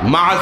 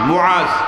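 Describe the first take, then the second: First: The name begins with a 'ma' sound. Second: The name begins with a 'mu' sound. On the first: The speaker calls it wrong. "মাআজ না, নট মাআজ" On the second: The speaker calls it right. "এটাই হলো শুদ্ধ উচ্চারণ"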